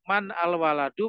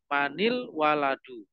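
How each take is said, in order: First: The words are said separately, without linking. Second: The words are linked with an i sound.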